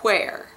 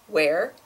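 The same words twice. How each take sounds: First: It starts with a breathy h before w. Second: It starts with a plain w sound. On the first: "he pronounces the H in where, so he will say where" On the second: "the standard pronunciation is something like where"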